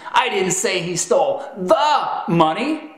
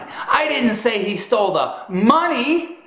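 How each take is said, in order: First: The word 'the' is stressed. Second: The word 'money' is stressed. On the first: He stole some other money, not that money. "The emphasis on the is communicating that you didn't say he stole that money" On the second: He stole something other than the money. "That's communicating that you proclaimed he stole something other than the money"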